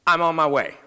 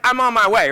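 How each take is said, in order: First: Said in the usual way. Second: "I'm on my way" said louder and higher, with resolve; firm reply. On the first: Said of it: "I know I would have never said that". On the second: Retold or imitated. Doctor telling the crying mother he is coming, louder and higher. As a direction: declare "I'm on my way" like a sudden decision. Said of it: "So I said".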